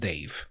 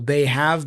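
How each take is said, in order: First: It is said as one contracted word. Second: It is said as two full words.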